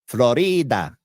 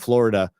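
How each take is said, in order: First: It is said with a Spanish pronunciation. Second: It is said with the usual English pronunciation.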